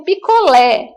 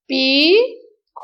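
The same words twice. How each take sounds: First: Said in the usual way. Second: "picolé" split into separate, drawn-out syllables. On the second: Shown as a demonstration. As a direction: sound out "picolé" slowly, pausing between syllables. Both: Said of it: "eu vou pintar a sílaba".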